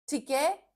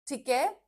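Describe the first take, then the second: Both takes have the same delivery.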